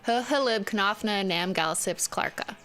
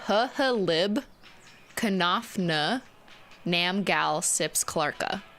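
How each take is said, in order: First: The mnemonic is said at a quick pace. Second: The mnemonic is said at a slow pace.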